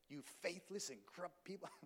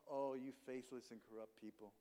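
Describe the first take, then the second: First: It is said as a sharp, emotional rebuke. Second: It is said mildly, without strong feeling.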